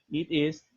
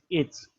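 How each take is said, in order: First: Both words are said in full, two syllables. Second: The words merge into one quick syllable. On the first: "En vez de decir it is" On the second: "digo it's. Más rápido y más fácil de pronunciar"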